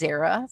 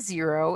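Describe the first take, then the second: First: It sounds like zerra, with a short vowel. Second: It sounds like the word zero. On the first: The speaker calls it right. "it's xera for dry" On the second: The speaker calls it wrong. "It's not a zero"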